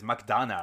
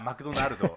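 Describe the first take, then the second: First: It is said with an American English accent. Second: It is said with a Japanese accent. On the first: "but American says McDonald's" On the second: "very Japanese pronunciation"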